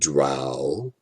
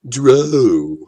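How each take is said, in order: First: The vowel rhymes with cow. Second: The vowel rhymes with go. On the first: "as in cow" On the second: "as in bow"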